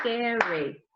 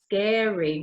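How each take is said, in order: First: Scary said softly in two clear beats; clapped syllables. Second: Scary split into two clapped beats; clapped syllables. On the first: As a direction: model sca-ry syllable by syllable. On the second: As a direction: clap out SCA-ry for the class. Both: Shown as a demonstration. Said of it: "clap the syllables".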